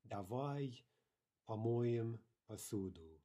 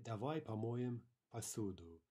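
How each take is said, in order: First: Slow "Давай", pause, then drawn-out "помоем посуду"; word by word. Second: Said in the usual way. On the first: Shown as a demonstration. Teacher modelling a Russian sentence for learners, slow word by word.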